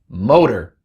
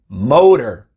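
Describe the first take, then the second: Both takes have the same delivery.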